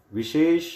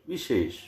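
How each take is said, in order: First: विशेष read as the wrong spelling; विशेष said as in the left column; wrong vishesh. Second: विशेष read as the correct spelling; विशेष said as in the right column; correct vishesh. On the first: Teacher reading the incorrect form. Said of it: "बाईं ओर लिखा है वह अशुद्ध है". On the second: Teacher reading the correct form. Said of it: "दाईं ओर लिखा है वह शुद्ध है". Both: Shown as a demonstration.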